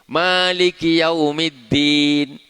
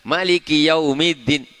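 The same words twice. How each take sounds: First: The first vowel after m is long. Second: The first vowel after m is short.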